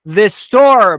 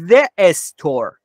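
First: No vowel is added before 'store'. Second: An extra vowel is added before 'store'. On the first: The speaker calls it right. "برای اینکه اینجا ا نداره" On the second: The speaker calls it wrong. "چرا نگفتی the store؟"

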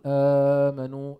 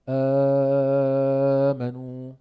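First: The opening long vowel is held for four counts. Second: The opening long vowel is held for six counts. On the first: "عند ورش بتقول آمنوا أو آمنوا" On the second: "أو آمنوا"

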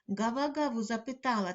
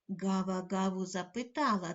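First: The line is said at a fast pace. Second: The line is said at a medium pace. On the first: "кожного разу пришвидшуючи темп" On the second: "кожного разу пришвидшуючи темп"

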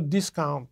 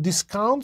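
First: The stress is on the first syllable. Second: The stress is on the second syllable. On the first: It is a noun: a price reduction. "you can get a discount" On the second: It is a verb: to disregard or reduce something. "You can discount something"

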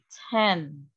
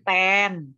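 First: The t is released with a strong puff. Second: The t is soft, without a puff of air. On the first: The speaker calls it right. "tapi 10. Ada plosifnya" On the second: The speaker calls it wrong. "Bukan 10"

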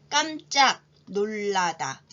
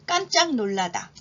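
First: The phrase is spoken slowly and drawn out. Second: The phrase is spoken at a normal pace. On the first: "제가 천천히 두 번 읽겠습니다" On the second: "이번에는 평균 속도로 해볼까요?"

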